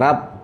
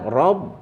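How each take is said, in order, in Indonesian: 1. Huruf r dibaca tipis dan ringan. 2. Huruf r dibaca tebal dan berat. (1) "jangan rab" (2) "tebal rabb ya"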